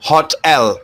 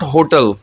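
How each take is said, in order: First: The first syllable sounds like hot. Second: The first syllable does not sound like hot. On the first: The speaker calls it right. "हॉट और एल को combine कर देंगे" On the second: The speaker calls it wrong. "It's not होटल"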